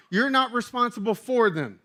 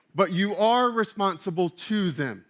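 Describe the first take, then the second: First: High-pitched, firm stress on "not" and "for"; emphatic stress. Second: Firm stress on "are" and "to"; contrastive stress. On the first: Preacher voicing Paul being clear, stressing "not" and "for". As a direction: punch "not", then lean on "for". Contrasts responsible for versus to. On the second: Preacher voicing Paul setting out a duty, stressing "are" and "to". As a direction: lean on "are", then mark "to". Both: Acted.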